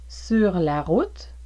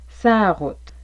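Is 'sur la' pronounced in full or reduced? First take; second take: full; reduced. First: Both words 'sur la' are fully pronounced. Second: 'Sur la' merges into one long 'sa'. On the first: "au lieu de sur la" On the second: "vous pourriez entendre un long A"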